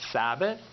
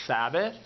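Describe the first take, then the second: No difference in how they are said.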